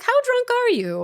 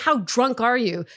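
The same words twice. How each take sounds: First: It sounds gentle and light, not attacking. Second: It sounds accusing, as if attacking him.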